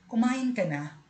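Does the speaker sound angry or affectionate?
affectionate. It is said in a tender, affectionate tone. The speaker cares warmly for the listener. The speaker calls it right. "may lambing"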